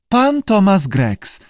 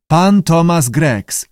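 First: Slow, high-pitched lizard echo; high creature repeat; lizard parroting. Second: Drawn-out, raised model phrase; slow teaching prompt. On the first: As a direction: parrot each word back, drawn out and high. Lizard echoes the keeper. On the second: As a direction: say it slowly for a pupil. Keeper teaching lizard his name. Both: A narrator's reading.

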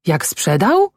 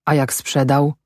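First: Higher-pitched exclaimed question; raised, indignant echo; called out. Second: Said in the usual way. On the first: A narrator's reading. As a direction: throw it back as an exclamation. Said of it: "zawołała".

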